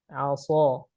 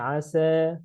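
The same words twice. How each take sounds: First: The s sound is heavy and thick. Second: The s sound is light and thin. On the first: The speaker calls it wrong. "Dia tergelincir di huruf sad" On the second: The speaker calls it right. "Harusnya asa"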